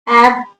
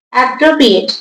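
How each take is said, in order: First: অ্যাপ্রোপ্রিয়েট split into syllables, long pause after each. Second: Said in the usual way. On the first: Shown as a demonstration. Teacher showing the syllables of অ্যাপ্রোপ্রিয়েট, said syllable by syllable with long gaps. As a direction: break অ্যাপ্রোপ্রিয়েট into four separate beats, ap, pro, pri, et. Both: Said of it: "syllable ভেঙে দেখাতে হবে".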